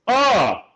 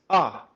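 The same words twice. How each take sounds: First: A big, intense, full operatic voice. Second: A lighter, smaller, everyday speaking voice. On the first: "The opera singer finds his keys" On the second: "the regular person finds their keys"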